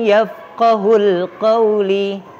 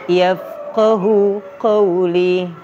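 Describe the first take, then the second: First: An extra 'l' joins yafqahu to qawli. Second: Yafqahu ends in a vowel before qawli. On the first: The speaker calls it wrong. "Bukan yafqahul qawli" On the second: The speaker calls it right. "Yang benar yafqahu qawli"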